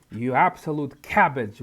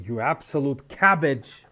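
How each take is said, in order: First: Absolute punched, loud and falling; stress on absolute. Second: Loud, disgusted scolding of a game character; exasperated insult. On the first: Player repeating the insult at Loretta, stressing absolute. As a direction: lean hard on "absolute". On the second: Player scolding Loretta on screen, loud and disgusted. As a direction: spit out the insult in disbelief. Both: Real, not acted.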